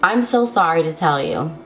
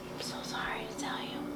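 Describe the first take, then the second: First: It is spoken aloud. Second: It is whispered.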